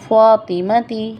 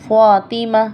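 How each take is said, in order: First: The word ends with a 'ti' sound. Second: The word ends with an 'ah' sound. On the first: The speaker carries on without stopping. "फ़ातिमती लफ्ज़ क्या है" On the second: The speaker stops on this word. "Stop की सूरत में"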